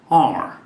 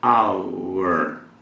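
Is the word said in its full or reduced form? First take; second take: reduced; full. First: The word is said in a short reduced form. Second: The word is said in its full form. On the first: "você vai ouvir muito isso quando nativos falam rapidamente" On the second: "como acabei de pronunciar"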